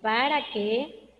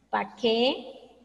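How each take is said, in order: First: The word para is said with both syllables. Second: The word para is shortened to one syllable. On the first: The speaker calls it right. "es para que" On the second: The speaker calls it wrong. "incluso reducimos ciertas, ciertas palabras"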